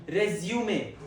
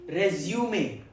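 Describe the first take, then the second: First: It is pronounced the way the noun is. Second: It is pronounced the way the noun is.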